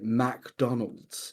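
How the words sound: The name has a clear break between its parts. "really like find the space between what they believe to be the two words"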